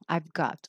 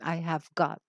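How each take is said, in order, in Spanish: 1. La palabra have se contrae en I've. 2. La palabra have se dice completa. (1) "como siempre hay co- formas contraídas, siempre se contrae" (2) "agregamos una palabrita aquí para expresar posesión"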